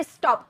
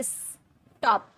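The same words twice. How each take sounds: First: Said in the usual way. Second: स्टॉप pulled apart slowly into "iss", pause, "top"; wrongly split syllables. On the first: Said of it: "एक ही बार में sound". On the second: Shown as a demonstration. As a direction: say स्टॉप as two drawn-out beats, "is... top". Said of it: "ऐसे थोड़ी बोल रहे".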